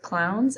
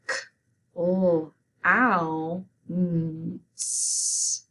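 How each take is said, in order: First: Said in the usual way. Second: "K, O, ow, n, s" as isolated sounds, O standing for the l sound. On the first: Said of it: "So let's say it". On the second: Shown as a demonstration. Teacher spelling clowns with students, sounding out "K, O, ow, n, s" separately. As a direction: pull "K, O, ow, n, s" apart, one sound at a time. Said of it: "and spell it".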